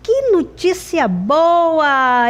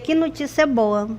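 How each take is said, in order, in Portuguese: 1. É dito com um tom feliz e animado. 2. É dito com um tom neutro e monótono. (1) "Eu fiquei feliz, eu fiquei alegre" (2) "com um ponto final"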